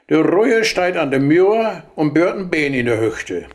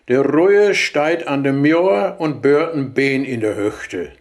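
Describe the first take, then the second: First: It is spoken quickly in a natural rhythm. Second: It is spoken slowly with strong emphasis. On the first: "aber diesmal schnell" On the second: "langsam und mit Betonung noch einmal"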